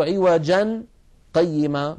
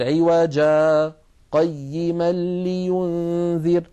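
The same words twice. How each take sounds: First: عوجا joined with nunation into قيما, no pause; the reading to avoid, no break; wrong linked reading. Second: عوجا with long alif, tiny breathless stop, then قيما لينذر, very slow; slow recitation showing the sakt; correct sakt reading. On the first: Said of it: "فلا نقول". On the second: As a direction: chant عوجا, a light halt, then قيما. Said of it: "بل نقول". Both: Shown as a demonstration.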